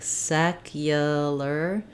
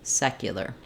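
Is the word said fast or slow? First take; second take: slow; fast. First: The word is said slowly and drawn out. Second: The word is said quickly at normal speed. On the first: "slow down the whole word" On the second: "then speed it back up"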